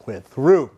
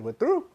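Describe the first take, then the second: First: Imitating a firm, louder we're through with a falling end; curt breakup line. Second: We're through tossed back high with a sharp rising question; echoing the girlfriend's breakup, incredulous; disbelieving echo. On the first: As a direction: state it flat and final. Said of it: "she called me and she's like". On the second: Retold or imitated. Repeats her words back in disbelief.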